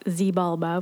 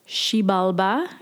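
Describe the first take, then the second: First: The word does not begin with 'sh'. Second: The word begins with a 'sh' sound. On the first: The speaker calls it wrong. "which is how I was initially saying it" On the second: The speaker calls it right. "X's are pronounced with a sh sound"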